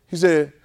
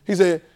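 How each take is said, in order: Both takes have the same delivery.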